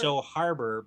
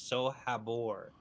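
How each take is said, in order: First: The middle is said like the word harbor. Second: The middle is said as habor, without harbor. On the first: The speaker calls it wrong. "the audiobooks pronounce it So Harbor, but it's not harbor" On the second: The speaker calls it right. "It's Sohabor"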